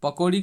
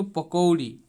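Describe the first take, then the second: First: Said in the usual way. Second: पकौड़ी with औ opened into a full "o-u" glide; पकौड़ी as pako-uri; Panchpargania pronunciation. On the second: Shown as a demonstration. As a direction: draw out the glide in पकौड़ी: "पकोउड़ी". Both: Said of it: "इस तरह से इसका उच्चारण होंगे".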